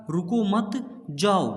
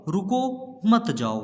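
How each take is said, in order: First: रुको मत run together, break, then जाओ; pause after मत. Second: रुको, break, then मत जाओ run together; pause after रुको. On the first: Teacher showing how punctuation changes meaning, pausing after मत. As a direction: join रुको to मत and set जाओ apart. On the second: Teacher showing how punctuation changes meaning, pausing after रुको. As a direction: set रुको apart, join मत to जाओ. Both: Shown as a demonstration. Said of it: "अर्थ पूरा बदल जाता है".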